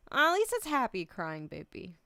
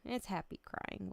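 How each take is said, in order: First: Happy crying. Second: Said in the usual way. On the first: Real, not acted. Streamer telling chat it's happy tears, louder through tears. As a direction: push through tears with a bright laugh. Tearful streamer consoling herself.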